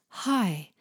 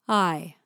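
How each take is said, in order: First: The vowel starts with an audible breathy h. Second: The vowel starts smoothly with no breath or catch. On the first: "I don't hear the H sound" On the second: "it's just a perfectly coordinated I"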